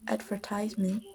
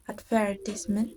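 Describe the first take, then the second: First: It is said with an American accent. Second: It is said with a British accent. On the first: "for the American pronunciation" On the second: "for the British accent"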